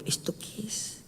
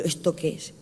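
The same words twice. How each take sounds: First: Voiceless whisper of "¿Esto qué es?"; inner thought whispered. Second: Said in the usual way. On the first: Retold or imitated. Thinking to himself during the tongues prayer, whispered. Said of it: "Y yo por dentro".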